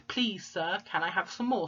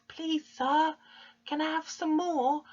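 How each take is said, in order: First: Said in the usual way. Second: High, small begging voice; Oliver Twist pleading. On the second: Acted. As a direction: beg timidly in a high little voice. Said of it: "And Oliver pleads".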